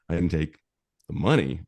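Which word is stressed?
money. The stress is on "money".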